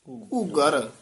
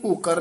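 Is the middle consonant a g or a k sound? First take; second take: g; k. First: The middle consonant is a g sound. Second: The middle consonant is a k sound. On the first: The speaker calls it right. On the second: The speaker calls it wrong. "ਘੂਕਰ ਨਹੀਂ ਕਹਿਣਾ"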